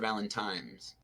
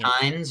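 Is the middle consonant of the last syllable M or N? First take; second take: M; N. First: The last syllable is said with an M sound. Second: The last syllable is said with an N sound.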